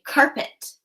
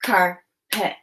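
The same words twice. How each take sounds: First: Said in the usual way. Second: "Carpet" split as car, pause, pet; chopped syllables. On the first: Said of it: "I'm going to say the word". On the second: Shown as a demonstration. Teacher models breaking "Carpet" apart for pupils, syllable by syllable. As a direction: leave a clear gap inside "Carpet". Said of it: "Now chop the syllables".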